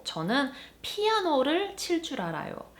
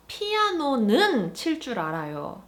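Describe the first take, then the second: First: Said in the usual way. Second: 피아노는 pushed up and louder; stress on 피아노는. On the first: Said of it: "So for example". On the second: Shown as a demonstration. Teacher contrasting particles, stressing 피아노는. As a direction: lean on 피아노는 to single out the piano. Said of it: "placing emphasis on the piano".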